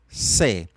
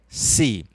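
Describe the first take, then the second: First: The vowel is pronounced more open. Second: The vowel is pronounced more closed. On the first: "podem pronunciar um pouco mais aberto" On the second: "eu particularmente falo um pouco mais fechado"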